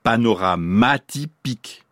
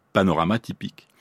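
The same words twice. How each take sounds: First: Panoramatypique slowed down, broken up to bring out mati; mati picked out. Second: Said in the usual way. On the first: Shown as a demonstration. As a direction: stretch panoramatypique in separate chunks, stressing mati. (panoramatypique, lent et découpé pour souligner mati) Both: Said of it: "être à cheval sur deux mots".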